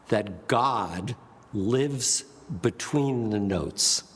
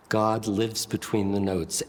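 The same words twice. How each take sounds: First: "God", "lives", "between the notes" spaced out slowly; pauses between words. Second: Said in the usual way. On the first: Shown as a demonstration. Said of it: "exists between the words".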